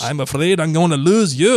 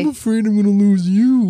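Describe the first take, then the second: First: It is said in an attempted Scottish accent. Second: It is said in a plain, unaccented natural voice. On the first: "Try to do it Scottish" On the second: "that's you"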